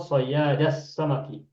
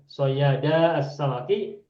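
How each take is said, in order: First: The words are run together into one phrase. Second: The words are said separately, the vowel held long. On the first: "kalau waso" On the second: "kalau kotor"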